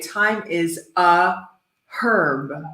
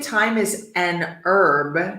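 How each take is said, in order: First: British accent, herb with a spoken h. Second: American accent, herb with a silent h.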